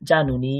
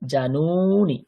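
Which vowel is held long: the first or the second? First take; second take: Second; First. First: The first vowel is short, the last long. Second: The first vowel is long, the last short. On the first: It refers to two knees. "প্রথমেরটা ছোট তারপরটা দীর্ঘ দ্বিবচনে" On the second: It refers to many knees. "বহুবচনে প্রথমেরটাই বড় হয়ে যাবে তারপরটা ছোট হয়ে যাবে"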